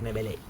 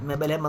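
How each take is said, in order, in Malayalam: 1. പേര് 'line' എന്ന ശബ്ദത്തിലാണ് അവസാനിക്കുന്നത്. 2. പേര് 'lem' എന്ന ശബ്ദത്തിലാണ് അവസാനിക്കുന്നത്. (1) "മെബലൈൻ അല്ലേ" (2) "മെബലേം എന്ന് പറയും ഞാൻ എപ്പോഴും"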